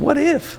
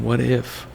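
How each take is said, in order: First: It sounds excited and full of wonder. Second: It sounds worried and doubtful. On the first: Something great might happen. "holy shit" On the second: Something bad might happen. "if you change the inflection on that, it's the complete opposite"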